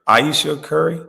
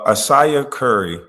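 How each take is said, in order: First: The first name is said like Aisha. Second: The first name is said like Asaya. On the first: The speaker calls it right. "I think that's how you say it" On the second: The speaker calls it wrong. "I think I always said Asaya"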